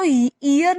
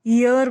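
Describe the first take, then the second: First: ईयर said as "ear", starting on a clear ee vowel; the wrong way, ईयर as ee-ur like the body part; ईयर opening on a long ee with no y sound; wrong pronunciation. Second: ईयर said as "year", starting with a y sound; the correct way, ईयर gliding in with y; ईयर pronounced yeer with a y glide at the start; right pronunciation. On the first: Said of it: "हम इसको ईयर नहीं पढ़ते". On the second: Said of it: "हम इसको ईयर पढ़ते हैं". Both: Shown as a demonstration.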